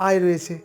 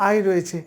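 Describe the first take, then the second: The two takes are said the same way.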